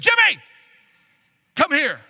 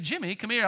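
First: It is said in a stern, angry tone. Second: It is said in a friendly, calm tone.

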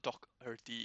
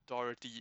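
First: The first syllable sounds like dock, with a k. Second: The first syllable sounds like doe, with no k. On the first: The speaker calls it wrong. "It's not Doherty" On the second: The speaker calls it right. "There's no Doc"

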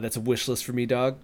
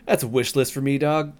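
First: It is said casually, with little conviction. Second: It is said with strong conviction.

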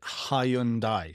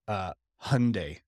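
First: It is said the British way, in three syllables. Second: It is said with an American pronunciation. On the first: "British people say it Hyundai, three syllables, also wrong" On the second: "The way Americans, Brits fuck it up too, is Hyundai"

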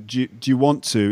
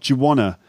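First: Every word is said fully and separately. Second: Want to is reduced to wanna.

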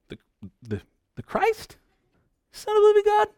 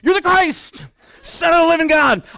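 First: It sounds hesitant and unsure, like a question. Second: It sounds eager and excited, like a confident answer.

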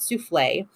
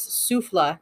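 First: The word ends with an 'ay' sound. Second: The word ends without an 'ay' sound. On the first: It names the dessert. The speaker calls it wrong. "not Souffle" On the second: It means a breath, not the dessert. The speaker calls it right. "Apparently it's Souffle"

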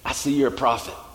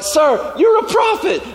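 First: It sounds dismayed and caught out. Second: It sounds excited and amazed.

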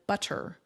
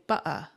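First: The middle consonant is a clear t sound. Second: The middle consonant is a glottal stop.

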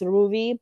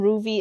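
First: The V has a quick upward tongue flick. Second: The V is a plain English V sound. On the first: The speaker calls it right. "there's something I'm doing with my tongue that Canadians can't do" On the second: The speaker calls it wrong. "even Ruvi is not correct"

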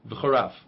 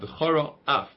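First: The two words run together without a break. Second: A short pause separates the two words. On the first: The speaker calls it wrong. "If you say it quickly, it sounds like" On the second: The speaker calls it right. "So you should make a stop"

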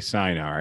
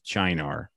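First: The word is pronounced in an English way. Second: The word is pronounced in an Italian way. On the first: The speaker calls it right. "I would say Sinar" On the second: The speaker calls it wrong. "that's how you would say it in Italian"

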